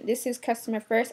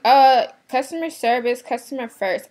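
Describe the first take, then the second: First: Said in the usual way. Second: Imitating a snooty shopper, louder on customer service; mocking customer. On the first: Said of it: "I said". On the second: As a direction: parrot the rude lady's slogan, loud then dropping. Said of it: "She's like".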